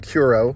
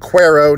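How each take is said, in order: First: The first syllable sounds like 'koo'. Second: The first syllable sounds like 'kweh'. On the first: The speaker calls it wrong. "not Curo" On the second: The speaker calls it right. "It is uh, Cuero"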